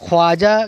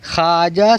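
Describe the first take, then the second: First: A w sound is heard after the kh. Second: No w sound is heard after the kh. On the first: The speaker calls it wrong. "गलत है" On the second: The speaker calls it right. "सही है"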